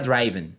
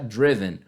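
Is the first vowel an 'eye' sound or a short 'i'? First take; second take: eye sound; short i. First: The first vowel is an 'eye' sound. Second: The first vowel is a short 'i'. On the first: The speaker calls it wrong. "um erro que muitos alunos cometem" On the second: The speaker calls it right. "Sempre o som vai ser fechado"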